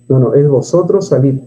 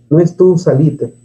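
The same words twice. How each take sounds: First: Salid said as the correct form, vosotros stressed; 바른 형태 vosotros salid를 짚어 주듯. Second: Salite as the wrong form, tú stressed; 틀린 예시로 tú salite를 말하듯. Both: Shown as a demonstration.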